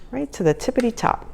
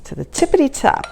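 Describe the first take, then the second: First: Tippity top lilted higher with a rise; childish sing-song. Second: Higher, playful sing-song on tippity top; tippity lilting up to a rising top. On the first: Cook repeating her sisters' childhood phrase, softer sing-song. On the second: Cook showing viewers a childhood saying, playful sing-song. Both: Shown as a demonstration. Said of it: "That's what me and my sisters used to say".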